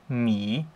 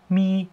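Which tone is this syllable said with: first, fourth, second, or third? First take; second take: third; first. First: The pitch dips down, then rises. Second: The pitch stays high and level.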